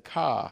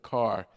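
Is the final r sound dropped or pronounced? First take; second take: dropped; pronounced. First: The final r sound is dropped. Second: The final r sound is pronounced. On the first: The speaker calls it wrong. "they usually say ka" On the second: The speaker calls it right. "instead of car"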